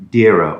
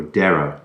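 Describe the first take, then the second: First: Dera said as DEER-uh; Dera, first vowel like "deer"; DEER-a pronunciation. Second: Dera said as DAIR-uh; Dera, first vowel like "dare"; DAIR-a pronunciation. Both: Shown as a demonstration. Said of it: "Dera or Dera".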